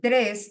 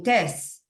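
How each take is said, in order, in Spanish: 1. La palabra empieza con un grupo t-r. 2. La palabra empieza con una t simple. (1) "si quieren decir"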